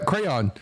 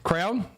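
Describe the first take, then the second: First: "crayon" said as KRAY-on, two clear syllables. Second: "Crayon?" squeezed to one syllable, like KRAWN. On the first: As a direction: spell out "crayon" as cray-on. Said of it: "how do you say cray". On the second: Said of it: "I say it crayon". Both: Shown as a demonstration.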